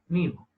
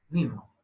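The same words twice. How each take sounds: First: The s sound in the middle is left out. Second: The s sound in the middle is left out.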